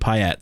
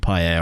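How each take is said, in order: First: The name is said with an English pronunciation. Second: The name is said with a French pronunciation. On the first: This is how the name was said in England. "In England, he was Dimitri Payet" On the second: This is how the name properly should be said. "obviously it should be Payet"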